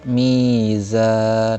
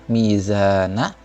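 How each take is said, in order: First: The word ends on n with no vowel. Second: The word ends with a final vowel after n. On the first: This is the form when stopping at the end. "Saat bacaan berhenti dibaca mizan" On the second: This is the form when reading on without stopping. "Jadi asalnya gini"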